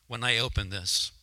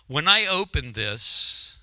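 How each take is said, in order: First: Said in the usual way. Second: When I opened this, slowed right down and louder; dramatic repeat. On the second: Real, not acted. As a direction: draw out When I opened this for suspense.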